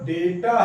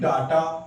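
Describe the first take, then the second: First: The first vowel sounds like 'ay'. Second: The first vowel sounds like 'ah'. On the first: The speaker calls it right. "डेटा जो है वो डेटा है" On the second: The speaker calls it wrong. "ना कि डाटा"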